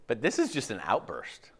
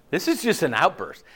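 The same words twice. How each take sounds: First: Whispered aside, unvoiced. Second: Said in the usual way. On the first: Shown as a demonstration. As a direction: breathe it as a secret.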